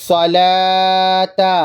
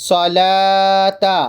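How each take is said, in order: The two takes are said the same way.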